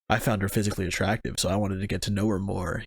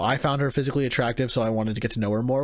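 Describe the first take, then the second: First: It is said in a knowing, suggestive tone. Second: It is said in a plain, sincere tone. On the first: The interest is implied to be sexual. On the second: The interest is genuine and innocent.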